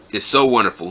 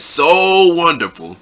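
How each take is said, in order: First: Said in the usual way. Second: Slow, higher, drawn-out sarcasm; sarcastic mock. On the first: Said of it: "And he said, "So wonderful". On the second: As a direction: stretch it out mockingly. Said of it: "responds to Taz in an angry tone".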